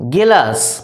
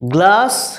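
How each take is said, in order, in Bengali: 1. একটি স্বরধ্বনি এটিকে 'gelas' করে দেয়। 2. এটি 'gl' ব্যঞ্জনগুচ্ছ দিয়ে শুরু হয়। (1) "ডান দিকেরগুলো হচ্ছে একটু বিকৃত উচ্চারণ" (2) "বাঁ দিকের উচ্চারণগুলো হচ্ছে শুদ্ধ উচ্চারণ"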